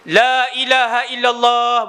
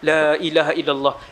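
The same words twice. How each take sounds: First: The phrase is said loudly. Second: The phrase is said softly. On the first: This is how the speaker himself says it. The speaker calls it wrong. "bukan kuat tu lah. Saya ni saya sebut kuat" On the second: This is how the Prophet said it. The speaker calls it right. "Nabi sebut pelan"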